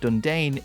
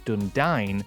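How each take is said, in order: First: The last syllable rhymes with pain. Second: The last syllable rhymes with dine. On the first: The speaker calls it wrong. "said in a way that it rhymes with the word pain" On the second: The speaker calls it right. "should be said as Dundine, rhyming with the word dine"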